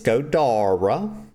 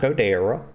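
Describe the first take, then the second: First: The middle vowel sounds like an A. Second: The middle vowel sounds like an E. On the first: The speaker calls it right. "It's Godara. that E is pronounced like an A" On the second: The speaker calls it wrong. "His name is not Godera"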